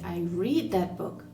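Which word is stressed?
read. The stress falls on the word read. I read it rather than listening to it. "I didn't listen to it on Audible"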